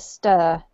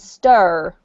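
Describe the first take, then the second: First: The word ends without an R sound. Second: The word ends with an R sound.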